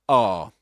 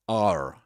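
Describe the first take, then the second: First: It is said in a British accent, without R. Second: It is said in an American accent, with R.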